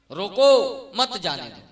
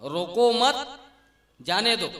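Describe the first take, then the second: First: Loud rising "रोको", pause, falling "मत जाने दो"; pause after रोको. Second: "रोको मत" as one raised phrase, then "जाने दो"; pause after मत. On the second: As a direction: break after मत, let जाने दो follow separately. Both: Shown as a demonstration. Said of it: "शब्द उच्छे ना".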